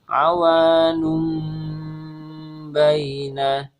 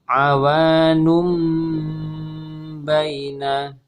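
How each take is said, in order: Both takes have the same delivery.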